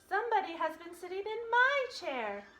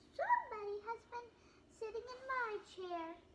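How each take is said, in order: First: It is said in a middle-sized voice. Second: It is said in a wee little voice.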